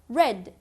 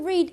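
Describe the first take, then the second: First: The vowel is short, like in 'red'. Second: The vowel is long, like in 'reed'. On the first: It is the past tense form. "is read. The same spelling but different pronunciation" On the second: It is the present tense form. "The past of read"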